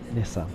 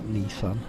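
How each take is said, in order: First: The first vowel is a short i sound. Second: The first vowel is a long ee sound. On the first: The speaker calls it right. "There's an I" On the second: The speaker calls it wrong. "Not Nissan. ... not an E"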